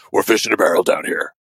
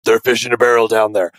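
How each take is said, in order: First: Lower, gravelly mock Batman line; half-hearted Batman impression, lower; a hint of a brooding hero; Cap's Batman voice. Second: Mock-serious superhero growl, understated; Cap's Batman voice. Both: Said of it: "Cap's most Batman voice".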